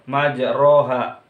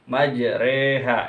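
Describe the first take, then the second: First: The middle vowel is a plain open 'a'. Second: The middle vowel is tilted toward 'e'. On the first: The speaker calls it wrong. "tidak boleh majroha, itu salah ya" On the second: The speaker calls it right. "Harus majreha"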